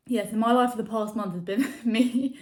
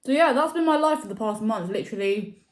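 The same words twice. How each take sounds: First: Said in the usual way. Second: Talking with a mouth full of food; words pushed around a bite of food. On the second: Real, not acted. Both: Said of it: "Sorry, I'm talking my mouth full".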